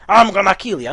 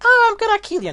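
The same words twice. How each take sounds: First: Loud threat in the Naga voice; the right take of the Naga line. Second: Much higher, squeaky mock threat; a squeaky joke take of the threat; the wrong take, squeaky and high; wrong silly voice. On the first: Retold or imitated. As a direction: threaten like the caught villain. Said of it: "she definitely said". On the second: Shown as a demonstration. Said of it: "that's not the Naga voice".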